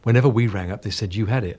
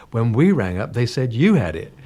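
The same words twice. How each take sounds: First: Said in the usual way. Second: "we" and "you" punched in retort; stress on WE, YOU. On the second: Retold or imitated. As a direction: throw it back, hitting "we" and "you". Turns the retold remark back.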